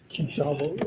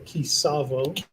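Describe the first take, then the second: First: The middle consonant is a t sound. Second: The middle consonant is an s sound. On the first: "depending on your pronunciation" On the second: "depending on your pronunciation"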